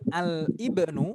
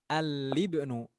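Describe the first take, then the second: First: The vowel of ibnu starts with a separate catch. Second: The l runs straight into ibnu without break. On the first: The speaker calls it wrong. "Bukan Al-Ibnu, bukan" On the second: The speaker calls it right. "Tapi Al-Ismu dan Al-Libnu"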